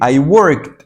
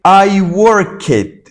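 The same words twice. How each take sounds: First: "worked" as one syllable, ending in a t sound; correct -ed pronunciation. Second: "worked" in two syllables, work-ked, loud and high; wrong -ed pronunciation. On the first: English teacher corrects the mistake for learners, "worked" cleanly said as workt. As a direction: say "worked" as "workt", no extra vowel. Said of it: "yo dije". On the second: English teacher shows learners what not to say, "worked" mispronounced as work-ked. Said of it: "yo no dije". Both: Shown as a demonstration.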